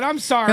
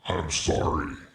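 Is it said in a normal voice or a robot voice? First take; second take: normal; robot. First: It is said in his normal voice. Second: It is said in a robot voice.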